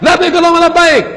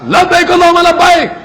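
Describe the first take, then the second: Both takes have the same delivery.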